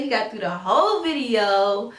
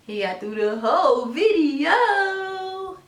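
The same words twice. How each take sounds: First: Said in the usual way. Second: High, very slow proud praise. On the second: Real, not acted. Praising baby, repeated.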